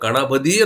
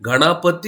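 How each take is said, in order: First: It begins with a voiceless k sound. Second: It begins with a voiced g sound. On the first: This is how Tamil speakers pronounce it. "ಕಣಬದಿ ಅಂತ ಮಾಡ್ತಾರ, ಉಚ್ಚಾರ ಮಾಡ್ತಾರ" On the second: This is the standard written form. "ಗಣಪತಿ ಅಂತ ಇದ್ದಿದ್ದನ್ನ"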